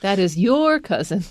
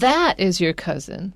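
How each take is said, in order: First: The stress falls on the word your. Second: The stress falls on the word that. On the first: The person belongs to you, not someone else. "It's not my cousin" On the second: It is that particular person, not another one. "就是特别强调那个"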